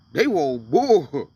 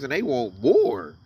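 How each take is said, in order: First: They want more, dragged out very slowly and louder, each word weighted; slow emphatic repeat. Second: Said in the usual way. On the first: Shown as a demonstration. Scene: preacher repeats his point about billionaires, slowly and emphatically. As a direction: lean hard on They want more, stretching every word.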